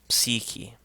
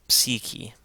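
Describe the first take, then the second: The two takes are said the same way.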